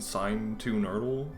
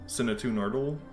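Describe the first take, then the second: First: The first syllable sounds like the word 'sign'. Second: The first syllable does not sound like 'sign'. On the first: The speaker calls it wrong. "I keep saying sign as if like that's the pronunciation" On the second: The speaker calls it right. "but it's not"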